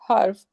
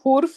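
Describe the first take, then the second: First: The first vowel is an 'a' sound. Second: The first vowel is a 'u' sound. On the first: The speaker calls it right. "जबर के साथ हर्फ होता है" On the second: The speaker calls it wrong. "हुर्फ नहीं बोलते"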